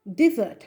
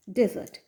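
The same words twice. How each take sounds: First: ডেজার্ট said firmly and louder as di-ZERT; first-syllable "di". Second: ডেজার্ট said on its own as DEH-zert; first-syllable "de". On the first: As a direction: punch out ডেজার্ট with an i in "di". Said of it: "প্রনাউন্সিয়েশনটা হবে ডেজার্ট". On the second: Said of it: "pronounce করবো as ডেজার্ট". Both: Shown as a demonstration.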